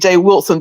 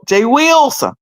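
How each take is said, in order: First: The first syllable sounds like 'will'. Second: The first syllable sounds like 'whell'. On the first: "he don't say Jay Wilson W I L S O N" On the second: "He say Wilson W H E L L"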